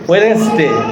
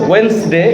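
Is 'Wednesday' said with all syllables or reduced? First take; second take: full; reduced. First: Every syllable is pronounced in full. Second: It is said quickly with syllables squeezed together. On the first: "ওয়েডনেসডে চলে" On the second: "আবার ওয়েন্সডেও যদি বলে দ্রুত"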